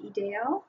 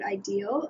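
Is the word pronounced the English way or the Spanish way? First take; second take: Spanish; English. First: The word is pronounced with Spanish sounds. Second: The word is pronounced with English sounds. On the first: "I think in Spanish it would be" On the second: "in English, I would pronounce the word"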